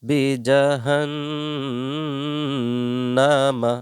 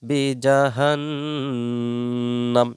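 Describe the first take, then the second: First: The word ends with a full final vowel. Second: The word ends cut short on a consonant. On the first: The reading continues without stopping. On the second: The reader stops at this word.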